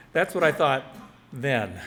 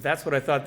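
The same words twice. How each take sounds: First: A pause, then "then" set apart; stress on THEN. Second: Said in the usual way. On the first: Shown as a demonstration. Explaining the title's second meaning, "then" set apart after a pause. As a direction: break before "then" to mark it as past. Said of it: "And also". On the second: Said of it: "Oh, I was right".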